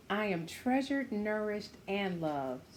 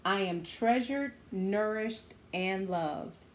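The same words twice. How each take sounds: The two takes are said the same way.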